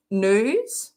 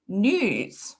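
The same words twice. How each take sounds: First: Drawn-out "news" with a plain oo, "nooz"; imitated pronunciation. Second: "news" said as "nyooz", with a y glide; careful, drawn-out "news" with a y after the n; preferred pronunciation. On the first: Streamer copying how the comedy partner says it, imitated nooz. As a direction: say "news" slowly as nooz, no y glide. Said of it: "he says news". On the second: Shown as a demonstration. Streamer showing how it should be said, careful nyooz. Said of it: "I think it should be said".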